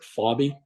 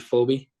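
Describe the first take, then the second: First: The name is pronounced as Fobby. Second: The name is pronounced as Phoebe. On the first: The speaker calls it wrong. "there's a lot of people that pronounce it Fobby" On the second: The speaker calls it right. "It is actually Phoebe"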